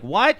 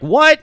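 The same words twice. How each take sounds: First: Rising questioning what; Perry confused by the remark; puzzled what. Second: Much higher, louder yelped what; a big half-orc squeaking in shock; the constable caught off guard, high and loud; startled what. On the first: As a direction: ask what as if lost. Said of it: "Perry's like". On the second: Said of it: "the half-orc is like". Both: Retold or imitated.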